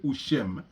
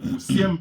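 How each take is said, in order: First: The middle consonant is an 'sh' sound. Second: The middle consonant is an 's' sound. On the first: This is how some regional speakers say it. "peut aussi se dire Ushem" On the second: This is the usual form. "Usiem peut aussi se dire"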